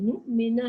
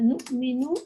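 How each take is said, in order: First: The word ends with an 'a' vowel. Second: The word ends with a 'u' vowel. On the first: The speaker calls it right. "नुमिना है" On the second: The speaker calls it wrong. "Sorry यहाँ पर नहीं, दम्मा नहीं है"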